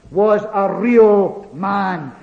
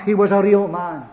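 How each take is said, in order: First: "real man" in slow, spaced-out words; emphatic REAL MAN. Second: Said in the usual way. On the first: Real, not acted. Preacher stressing the Lord's humanity, slow emphasis on "real man". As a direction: draw out "real" and "man" deliberately. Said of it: "Let us emphasize that tonight". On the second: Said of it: "We never can emphasize it too much".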